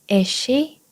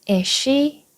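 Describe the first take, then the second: No difference in how they are said.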